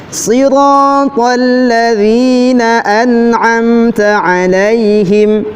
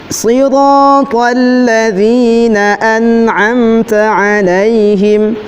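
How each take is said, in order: The two takes are said the same way.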